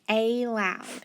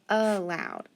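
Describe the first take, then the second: First: The first vowel is a long A sound. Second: The first vowel is a weak schwa sound. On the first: The speaker calls it wrong. "It should be a long A sound" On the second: The speaker calls it right. "it's going to make that silly schwa sound"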